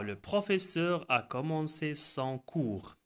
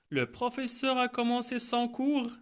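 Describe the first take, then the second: First: The voice falls at the end. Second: The voice rises at the end. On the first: It states a fact. "C'est une phrase déclarative" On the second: It asks a question. "on peut changer seulement l'intonation"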